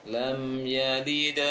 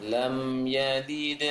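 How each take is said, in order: The two takes are said the same way.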